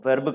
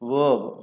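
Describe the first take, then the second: First: The r sound is clearly pronounced. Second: The r sound is silent. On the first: The speaker calls it wrong. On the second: The speaker calls it right.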